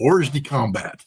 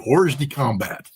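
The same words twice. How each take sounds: First: It is said with an anglicized English pronunciation. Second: The same.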